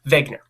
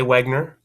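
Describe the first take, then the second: First: The name begins with a V sound. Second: The name begins with a W sound. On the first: The speaker calls it right. "the correct pronunciation, which is Wegener" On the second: The speaker calls it wrong. "If you say Wegner, I won't correct you"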